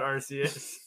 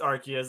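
First: The first syllable sounds like 'arse'. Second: The first syllable does not sound like 'arse'. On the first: This sounds like British slang for a butt. The speaker calls it wrong. "we can't call it Arceus" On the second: This is the official pronunciation. The speaker calls it right. "it's one of the only Pokemon to have an official canon pronunciation"

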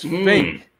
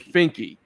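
First: The name ends sharply on the k sound. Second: The name ends in an extra ee sound. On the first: The speaker calls it right. "It's Fink" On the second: The speaker calls it wrong. "I've been saying Finky"

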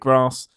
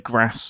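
First: It is said in a Southern English accent. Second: It is said in a Northern English accent.

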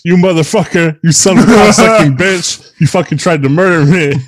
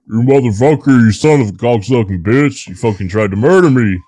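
First: It is said in his normal reading voice. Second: It is said in a growling Bigfoot monster voice.

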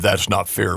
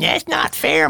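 First: The voice is deeper, like an adult's. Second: The voice is higher, like a child's. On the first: An adult is complaining. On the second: A child is complaining.

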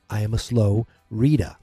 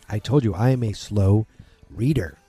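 First: It is said in a Boston accent. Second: It is said in a plain, neutral accent.

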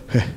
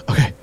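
No difference in how they are said.

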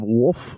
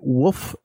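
First: The word is said with an L sound. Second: The word is said without an L sound.

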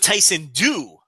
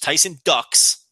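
First: The surname sounds like duke, with no final s. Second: The surname sounds like the word ducks. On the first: "Silent X" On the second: "like the animal that swims in a lake"

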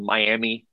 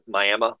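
First: The word ends in an 'ee' sound. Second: The word ends in an 'uh' sound. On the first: The speaker calls it right. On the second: The speaker calls it wrong.

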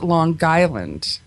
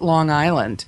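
First: It is said in a New York way. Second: It is said in a Pennsylvania way. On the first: "unique to New Yorkers... I heard you pronounce it" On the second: "I'm from Pennsylvania, so we pronounce it"

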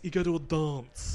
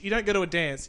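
First: It is said with a long, broad vowel. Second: It is said with a short, flat vowel.

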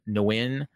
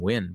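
First: The name starts with an audible N sound. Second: The name starts with a plain W sound. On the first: "that's how they pronounced it" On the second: "I always pronounce that name Win"

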